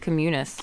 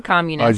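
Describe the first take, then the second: First: The stress is on the second syllable. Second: The stress is on the first syllable. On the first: "You know how you accent the second syllable typically in Latin" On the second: "I guess you could say communist"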